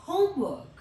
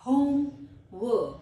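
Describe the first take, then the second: First: Said in the usual way. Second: Home and work as two separate louder words; split into parts. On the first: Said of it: "इकट्ठा बोलेंगे". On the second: Shown as a demonstration. Teacher dividing a compound word, parts said separately. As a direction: punch home, pause, then drop on work. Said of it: "syllables में divide करूंगी".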